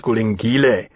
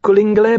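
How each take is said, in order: First: Coligny pronounced properly; corrected name Coligny. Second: Coligny said wrongly; mispronounced name Coligny. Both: A narrator's reading. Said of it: "You are saying it wrong".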